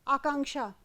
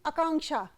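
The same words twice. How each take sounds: First: The first vowel is a long aa. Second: The first vowel is a short a. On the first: The speaker calls it right. "जैसे कोई नाम है आकांक्षा" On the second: The speaker calls it wrong. "बोलचाल की भाषा में हम उसको क्या बोलेंगे"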